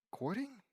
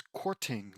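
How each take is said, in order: First: "Courting" said as "cording", pitched up as a question; questioning pronunciation. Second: "courting" with a distinct t; corrected pronunciation. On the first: Real, not acted. Reader doubts the word just read, questioning "Courting" with a soft d. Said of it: "I thought it was courting". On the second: Shown as a demonstration. Reader checks the word against its spelling, "courting" with a clear t. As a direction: sound out "courting" as court-ing. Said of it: "like C O U R T".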